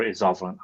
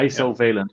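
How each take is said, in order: First: Isovalent as IZ-off-uh-lent; alternative pronunciation. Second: Isovalent as EYE-so-VAY-lent; long-vowel pronunciation. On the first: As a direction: say isovalent with a short iz start and no VAY. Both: Shown as a demonstration. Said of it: "I don't know".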